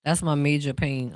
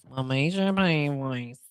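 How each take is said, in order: First: Said in the usual way. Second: Slow, put-on movie character voice, lightly done; Major Payne voice. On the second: Shown as a demonstration. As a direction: drag out "My major pain voice" slowly in a borrowed voice. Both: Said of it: "um, voice".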